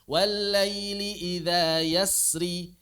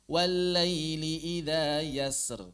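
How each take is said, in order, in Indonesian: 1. Kata terakhir diakhiri dengan vokal pendek. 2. Kata terakhir diakhiri dengan konsonan mati.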